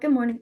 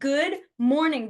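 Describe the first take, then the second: First: The greeting is said small and quiet. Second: The greeting is said big and loud.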